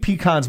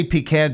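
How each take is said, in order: First: "pecan's" with an open "ah", like "kahnz"; pee-KAHN. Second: "pecan" with a short a as in "can"; pee-CAN. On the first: Host picking the fun way to say it, "pecan's" as pee-KAHNZ. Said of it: "more fun to say". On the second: Host saying it like the relatives do, "pecan" as pee-CAN. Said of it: "I say pecan because". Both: Shown as a demonstration.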